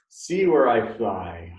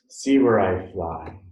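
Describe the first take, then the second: First: It is said in a loud voice. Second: It is said at normal loudness. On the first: "in a loud voice" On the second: "in a normal voice"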